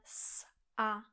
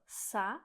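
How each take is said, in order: First: A tiny pause separates the s and a. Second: The s runs straight into the a. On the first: The speaker calls it right. "ale s a" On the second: The speaker calls it wrong. "Není to sa"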